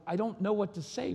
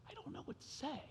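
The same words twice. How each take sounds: First: Said in the usual way. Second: Tiny high voice, nearly all breath; retold crying. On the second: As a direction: choke it out in a faint, tearful squeak. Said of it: "I started crying".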